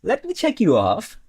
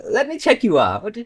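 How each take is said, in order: First: Rising tune on "check you off", leaning on "off"; contrast stress. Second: Rising tune on "check you out", leaning on "out"; contrast stress. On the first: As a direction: say "let me check you off" as the odd one out. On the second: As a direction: say "let me check you out" as the other meaning. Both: Shown as a demonstration. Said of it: "huge difference between".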